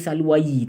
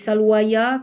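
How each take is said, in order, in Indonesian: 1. Kata ini berakhir dengan bunyi yi yang ditambahkan. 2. Kata ini berakhir dengan bunyi ya yang ditambahkan. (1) "tak boleh baca salwayi" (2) "tak boleh salwaya"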